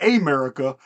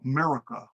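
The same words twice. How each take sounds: First: The word begins with a vowel sound. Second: The word begins with an M sound. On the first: The speaker calls it wrong. "Not America" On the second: The speaker calls it right. "It starts with an M"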